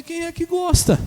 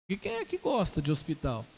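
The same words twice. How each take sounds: First: Loud, high exclaimed question; exasperated retort. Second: Said in the usual way. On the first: Retold or imitated. Preacher retelling his answer to fearful patient, loud retort.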